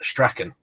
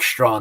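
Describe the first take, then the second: First: The name has a throaty 'ch' sound. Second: The name has no throaty 'ch' sound. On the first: The speaker calls it wrong. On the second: The speaker calls it right.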